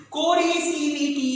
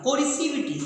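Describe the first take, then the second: First: कोरिसिविटी said slowly, every syllable stretched; drawn-out dictation. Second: Said in the usual way. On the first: Shown as a demonstration. Teacher repeats the term for students, drawing it out slowly. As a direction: stretch out कोरिसिविटी for note-takers.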